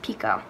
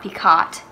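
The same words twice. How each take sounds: First: The word is said the French way. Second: The word is said the English way. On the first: The speaker calls it right. "it is actually French, so it's pronounced Picot" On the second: The speaker calls it wrong. "so it's not Picot"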